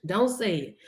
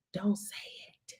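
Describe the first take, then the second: First: Said in the usual way. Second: Breathy warning whisper, much softer. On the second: Acted. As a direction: hush it like a secret. Warning not to speak it.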